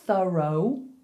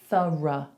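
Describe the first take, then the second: First: The final vowel is full and clearly pronounced. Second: The final vowel is a weak, neutral schwa. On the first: The speaker calls it wrong. "Is your instinct to say thorough?" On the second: The speaker calls it right. "we actually say thorough"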